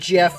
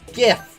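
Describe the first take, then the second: First: The word starts with a soft J sound. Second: The word starts with a hard G sound. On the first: This is the speaker's usual pronunciation. "I'd pronounce it Jif like the um, peanut butter" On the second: Others argue for this pronunciation. "I understand the thing like, oh, it's GIF"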